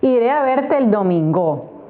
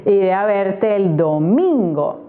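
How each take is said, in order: First: The stress is on the third syllable. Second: The stress is on the second syllable. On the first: The speaker calls it wrong. "No puede ser" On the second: The speaker calls it right. "Uh-huh, me parece"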